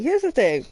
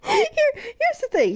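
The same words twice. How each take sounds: First: Said in the usual way. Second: "Here" jumps high, then "here's the thing" falls; emphatic here. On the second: Real, not acted. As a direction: hit "Here" hard and high, let the phrase drop.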